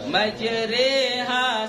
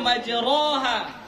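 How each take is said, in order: First: The vowel after r leans toward e. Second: The vowel after r is an open a. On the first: "tapi kita bacanya majre" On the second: "seharusnya majroha"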